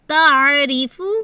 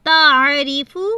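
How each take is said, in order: No difference in how they are said.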